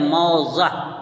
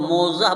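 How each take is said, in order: First: The first vowel is an 'au' diphthong. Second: The first vowel is a plain 'o' sound. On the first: The speaker calls it right. "इसका सही लफ्ज़ है मौज़ह" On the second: The speaker calls it wrong. "मोज़ह बोलना शुरू कर दिए हैं, ये गलत है"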